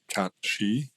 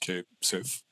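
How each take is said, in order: First: The name sounds like Cat She. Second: The name sounds like Kate Sith. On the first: It follows the traditional mythological pronunciation. "the traditional mythological pronunciation" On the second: It is read the way it is spelled. "we just we read it as is"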